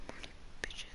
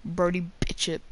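First: Breathy whisper of the name, no voice. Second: Said in the usual way. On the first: Shown as a demonstration. Gamer whispering a name to himself mid-game. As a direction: hush it to himself like a secret.

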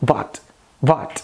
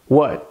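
First: "what" starting with V; Indian English accent. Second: "what" with an American W; American accent. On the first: Teacher contrasting W and V, Indian accent. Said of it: "Já no inglês indiano soa". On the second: Teacher giving the American version, American accent. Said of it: "no inglês americano". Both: Shown as a demonstration.

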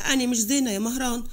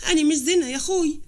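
First: Said in the usual way. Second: Higher, more insistent appeal; distressed plea. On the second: Acted. Thrown-out sister tells her brother she is not well, pleading. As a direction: plead with mild distress, raising the pitch.

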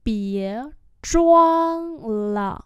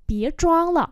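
First: Long, separate syllables. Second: Said in the usual way. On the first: Shown as a demonstration. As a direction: draw each syllable out. Teacher repeats phrase slowly.

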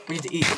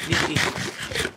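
First: Said in the usual way. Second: Slow, tense whisper. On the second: Real, not acted. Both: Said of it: "Kinda like in tense mode".

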